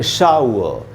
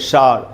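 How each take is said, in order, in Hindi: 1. ow-uh जैसा बोला जाता है, बिना r के। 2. एक लंबे अक्षर में बोला जाता है, अंत में r के साथ। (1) "तो हम पढ़ेंगे शाउ" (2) "इंग्लिश मीडियम में शार"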